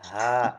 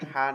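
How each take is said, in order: First: The h sound is stronger and more audible. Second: The h sound is light and soft. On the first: The speaker calls it right. "এটা আরেকটু সাউন্ড হবে" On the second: The speaker calls it wrong. "এটা হা না"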